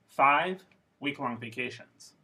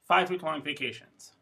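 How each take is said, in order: First: It is split into two groups after five. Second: It is said as one unbroken group. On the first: "if I say the same little phrase with two thought groups" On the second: "if I say it with one thought group"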